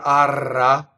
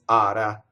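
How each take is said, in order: First: The R is rolled with several tongue taps. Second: The R is flipped with one quick tap. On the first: The speaker calls it wrong. "It's not arra" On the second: The speaker calls it right. "If an R is surrounded by vowels, it flips"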